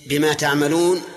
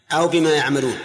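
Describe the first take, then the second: First: تعملون with an initial "ta" sound; reading with ta. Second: يعملون with an initial "ya" sound; reading with ya. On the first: Teacher quizzing students on the readings, تعملون with ta. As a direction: offer تعملون, beginning on t. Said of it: "سواء جاءت بالتاء". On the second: Teacher asking students which reading, يعملون with ya. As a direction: offer يعملون as the alternative, beginning on y. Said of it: "بالياء". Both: Shown as a demonstration.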